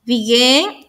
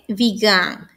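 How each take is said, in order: First: "Began" as "bee-GUEN", rising tone; e vowel in last syllable of "Began"; present-tense begin. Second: "began" as "bee-GAHN", low falling tone; lower, falling "bee-gahn" for "began"; past-tense began. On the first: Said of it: "Aquí vamos con el siguiente verbo". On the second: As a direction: open a in last syllable of "began". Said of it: "Y el que sigue es". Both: Shown as a demonstration.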